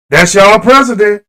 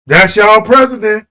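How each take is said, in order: Both takes have the same delivery.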